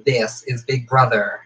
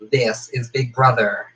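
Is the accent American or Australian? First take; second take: American; American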